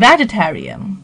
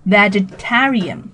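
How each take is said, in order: First: The main stress falls early, on 'veg'. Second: The main stress falls late, on 'tar'. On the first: The speaker calls it wrong. "不要念成" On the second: The speaker calls it right. "重音是靠后的"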